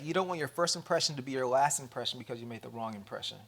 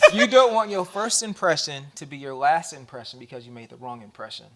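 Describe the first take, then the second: First: It is said at a normal speed. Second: It is said more slowly and deliberately.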